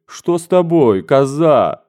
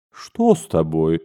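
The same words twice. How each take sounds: First: Higher and louder, a mother caught off guard; amazed mother asking what's wrong; astonished. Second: Said in the usual way. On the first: Acted. The general's wife, surprised by her daughter's kisses, asks again. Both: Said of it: "твердила изумлённая генеральша".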